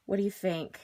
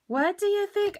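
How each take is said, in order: First: Said in the usual way. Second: Much higher, eager and louder; a gleeful squealed repeat; excited high repeat. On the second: Real, not acted. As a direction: ask it again with rising delight.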